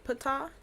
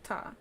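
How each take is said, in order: First: A P sound is heard before the T. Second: No P sound is heard before the T. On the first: "some people say pata" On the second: "some people say ta"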